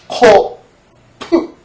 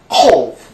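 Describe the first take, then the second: First: The final p is released strongly as a syllable. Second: The final p is weak and barely released. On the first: The speaker calls it wrong. "프 여기 나는 소리처럼요. 그렇게 하면 안 되는 것이죠" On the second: The speaker calls it right. "역시 그 끄트머리도 역시 약하게 하는 것입니다"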